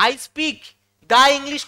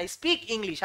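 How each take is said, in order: First: "the" set off by a pause and said louder; pause, then hit "the English" hard; wrong-example emphasis. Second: Said in the usual way. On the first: Shown as a demonstration. Teacher showing students the wrong usage, "the" loudly stressed. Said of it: "কখনো হবে না". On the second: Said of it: "আমি ইংরেজি বলি".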